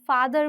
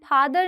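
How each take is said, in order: First: It begins with a true f sound. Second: It begins with a breathy p sound. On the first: The speaker calls it right. "हम फादर बोलते हैं" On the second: The speaker calls it wrong. "हम फादर नहीं बोलते"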